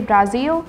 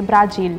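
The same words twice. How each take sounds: First: The word is said without a J sound. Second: The word is said with a J sound. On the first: This is the English form used in India. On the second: This is the Hindi form.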